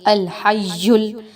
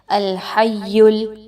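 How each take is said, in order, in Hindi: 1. दोहरे y में सीटी जैसी हिस है। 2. दोहरे y में सीटी जैसी हिस नहीं है। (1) "या में सीटी की आवाज़ आपकी नहीं आनी चाहिए, अल हय्युल ऐसी आवाज़ नहीं आनी चाहिए" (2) "बल्कि"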